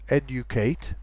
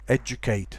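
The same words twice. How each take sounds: First: The d and y sounds stay separate. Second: The d and y merge into j. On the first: It is a careful pronunciation. "a very careful pronunciation" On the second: It is the everyday pronunciation. "most people I think nowadays say educate"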